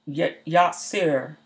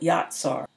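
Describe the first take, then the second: First: It is said with a Yiddish-style vowel. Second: It is said without a Yiddish-style vowel.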